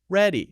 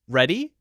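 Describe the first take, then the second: First: The pitch falls at the end. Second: The pitch rises at the end. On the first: It states that the speaker is ready. "that goes down" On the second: It asks whether someone is ready. "the rising uh, tone"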